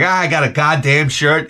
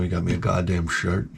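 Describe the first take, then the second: First: Understated angry complaint about a gift; mild mock anger. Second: Put-on low, quiet, resigned old man; too defeated for anger. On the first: Someone complaining about a Christmas gift, mildly angry. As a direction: grumble it with a touch of anger. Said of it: "somebody would say that angry". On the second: Old maintenance man naming his gift, drained and resigned. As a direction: mumble it with all the fight gone. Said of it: "he couldn't muster the anger anymore". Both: Shown as a demonstration.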